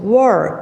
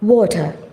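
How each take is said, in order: First: It is said in an American accent. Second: It is said in a British accent. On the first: "So war is American pronunciation" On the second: "if you like to talk in British accent, that is water"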